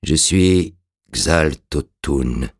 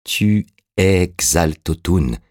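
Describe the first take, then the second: First: Very slow, halting dead man's voice; sinister murmur. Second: Slow, emphatic, with the words spaced out; insistent cry. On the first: The revived corpse answers Orastès, a slow sinister murmur. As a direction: intone it haltingly, with long gaps. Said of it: "en un sinistre murmure". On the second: Orastès cries out to convince the revived man, slow and insistent. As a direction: insist on each word without shouting. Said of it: "s'écria Orastès". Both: A narrator's reading.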